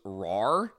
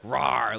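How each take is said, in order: First: Little pretend roar; tiny squeaky trying to roar. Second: Half-hearted mock claw roar; tiny squeaky trying to roar. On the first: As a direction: growl like a kitten trying to be scary. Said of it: "the rest of the team goes". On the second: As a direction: do a weak little rawr. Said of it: "He's like".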